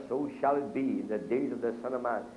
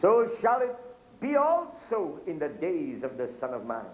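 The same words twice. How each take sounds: First: Said in the usual way. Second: Scripture reading. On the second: Acted. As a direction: call the verse out to the congregation. Quotes scripture in preaching.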